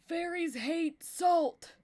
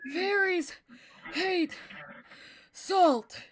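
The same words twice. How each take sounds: First: It is said in a steady, normal voice. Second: It is said huffing and puffing, out of breath.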